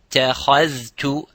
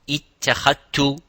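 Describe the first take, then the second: First: The dh sound is heard before the t. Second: The dh sound is merged into the t. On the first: The speaker calls it right. "Dhal and ta, both of them have to be observed" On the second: The speaker calls it wrong. "and not"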